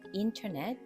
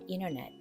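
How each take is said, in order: First: The T sound after N is clearly pronounced. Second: The T sound after N is dropped. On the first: The speaker calls it wrong. "인터넷 대신에" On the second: The speaker calls it right. "N과 T가 연달아서 올 때는 T 발음을 거의 하지 않습니다"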